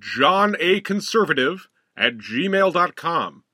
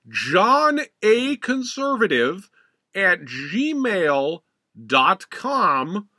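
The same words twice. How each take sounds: First: It is said at normal speed. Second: It is said slowly and deliberately.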